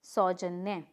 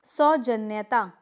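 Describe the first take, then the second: First: सौजन्य lower, stopping at "nya"; correct form. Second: सौजन्यता slowly, with final "taa"; incorrect form. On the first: Teacher correcting the class, सौजन्य without "taa". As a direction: say सौजन्य as sau-jan-ya. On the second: Teacher showing a mistake, सौजन्यता with extra "taa". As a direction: say सौजन्यता as sau-jan-ya-taa. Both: Shown as a demonstration. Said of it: "नहीं".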